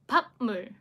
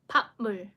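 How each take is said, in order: No difference in how they are said.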